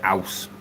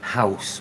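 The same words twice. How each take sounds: First: The word begins without any h sound. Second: The word begins with a clear h sound. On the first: "we don't use the letter H. We say house" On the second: "We don't say house"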